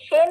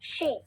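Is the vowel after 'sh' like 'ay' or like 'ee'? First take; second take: ay; ee. First: The syllable is said with an open 'e' vowel. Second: The syllable is said with a close 'i' vowel. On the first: The speaker calls it wrong. "शे नहीं" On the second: The speaker calls it right.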